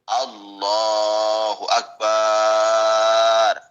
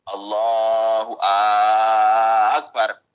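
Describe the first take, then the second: First: The B syllable of akbar is drawn out. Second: The opening A of akbar is drawn out. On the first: "yang panjang ba-nya" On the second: "yang panjang hamzahnya akbar"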